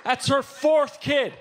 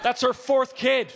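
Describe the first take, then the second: First: Higher and louder, slow and strained; outraged shout. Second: Higher, louder, slow; incredulous yell. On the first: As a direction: yell "fourth" like it's unbelievable. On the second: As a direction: stretch out "fourth" in outrage. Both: Real, not acted.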